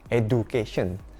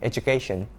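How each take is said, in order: First: The middle consonant is a plain d sound. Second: The middle consonant is a j sound. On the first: The speaker calls it wrong. "kebanyakan orang Indonesia kalau mengucapkan kata ini, bilangnya education" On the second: The speaker calls it right. "Pakai J, education"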